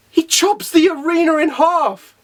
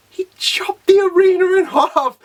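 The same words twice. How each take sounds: First: High, slow exclamation of disbelief; amazed emphasis. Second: Higher, strained, word-by-word amazement; incredulous exclamation. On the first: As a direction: spell out the feat, pitched up. Amazed first telling of the feat. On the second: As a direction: hammer each word in high-pitched disbelief. Repeats the feat even more incredulously. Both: Real, not acted.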